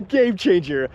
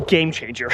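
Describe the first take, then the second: First: Slow, laughing repeat. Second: Said in the usual way. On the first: Real, not acted. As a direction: laugh through the words.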